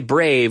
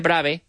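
First: The vowel is an English 'ay' glide. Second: The vowel is a flat Spanish 'a'. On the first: The speaker calls it right. "in English we do say brave" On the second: The speaker calls it wrong. "We don't say brave"

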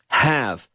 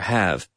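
First: The H is breathed fairly strongly. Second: The H is breathed very softly.

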